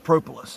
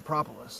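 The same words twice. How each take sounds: First: It is said the Canadian beekeeper's way. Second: It is said the speaker's own usual way. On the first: Someone else says it this way. "he says propolis" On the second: This is how the speaker normally says it. "and I say propolis"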